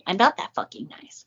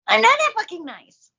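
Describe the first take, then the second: First: The line is said in a plain, calm way. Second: The line is said in a wild, unhinged way.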